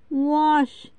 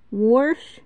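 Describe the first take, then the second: First: Said in the usual way. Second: Wash pronounced "worsh". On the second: Shown as a demonstration. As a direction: add an R before the SH in wash. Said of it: "use the letter S as R".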